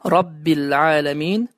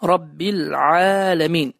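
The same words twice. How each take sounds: First: The ayn is made with a moderate throat squeeze. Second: The ayn is made with a very deep throat squeeze. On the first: The speaker calls it right. "Düzgün okunuş" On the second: The speaker calls it wrong. "boğazı çox dərindən sıxaraq tələffüz edirlər"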